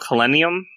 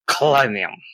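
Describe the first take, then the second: First: The opening sound is plain and soft. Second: The opening sound is harsh and throaty. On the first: The speaker calls it wrong. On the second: The speaker calls it right.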